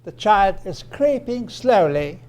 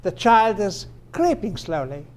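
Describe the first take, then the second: First: Creeping and SLOWLY each stressed as separate ideas; slow, deliberate, SLOWLY kept prominent after creeping. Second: One unit led by CREEPING; stress on CREEPING. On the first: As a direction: give "slowly" its own weight. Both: Shown as a demonstration. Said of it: "But notice the intonation".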